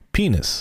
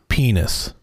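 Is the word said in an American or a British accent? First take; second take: British; American. First: It is said in a British accent, short and upbeat. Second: It is said in an American accent, slowly. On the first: "here's the British pronunciation of penis" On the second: "American pronunciation of penis"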